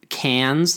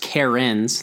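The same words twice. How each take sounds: First: It is said to sound like the Australian city. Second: It is said to sound like a woman's name. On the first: "like you'd pronounce the Australian city name" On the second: "like a female name"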